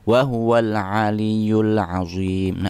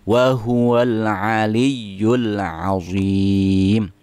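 First: The doubled y sound is weak, almost lost. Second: The doubled y sound is pressed and clearly held. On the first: The speaker calls it wrong. "tasdidnya kayak setengah-setengah atau bahkan hilang ... itu salah" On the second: The speaker calls it right. "harus ditekan supaya jelas ya-nya itu ada tasdid"

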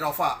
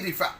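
First: The first vowel sounds like 'a'. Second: The first vowel sounds like 'i'. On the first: This is how many people commonly say it. "রফা অনেকেই বলে রফা" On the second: This follows the local written form. "এই দেশের মানে লেখা অনুযায়ী রিফা"

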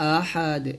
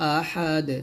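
First: The word ends on a bare "d" sound. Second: The word ends on a bare "d" sound.

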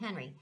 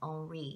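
First: The name is said with an English accent. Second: The name is said with a French accent. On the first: "instead of saying Henry" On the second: "I'm trying to use my French accent"

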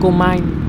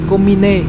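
First: The name is pronounced the English way. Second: The name is pronounced the Japanese way. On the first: The speaker calls it wrong. "Comine thì nó đọc theo kiểu Anh mất rồi, nghe nó hơi kỳ kỳ tí" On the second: The speaker calls it right. "đọc theo tiếng Nhật thì nó là Komine"

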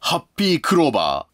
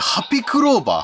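First: The first part is a full, long 'happy'. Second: The first part is a short, clipped 'hapi'. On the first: The speaker calls it wrong. "ハッピーじゃなくて" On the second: The speaker calls it right. "ハッピーじゃなくて、ハピ"

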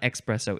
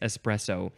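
First: It begins with an 'ex' sound. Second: It begins with an 'ess' sound. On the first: The speaker calls it wrong. "It's not espresso" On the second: The speaker calls it right. "there's no X in espresso"

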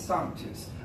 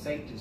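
First: It sounds like 'sanctus', every sound kept. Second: It sounds like 'sanka', the end dropped. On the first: The speaker calls it right. "It's sanctus" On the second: The speaker calls it wrong. "No, it's not sanka coffee"

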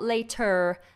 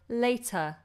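First: The word ends with a strong R sound. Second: The word ends with a relaxed schwa. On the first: The speaker calls it wrong. "not later" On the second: The speaker calls it right. "this ends with a schwa"

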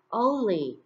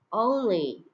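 The two takes are said the same way.

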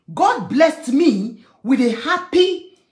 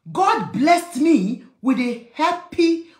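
The two takes are said the same way.

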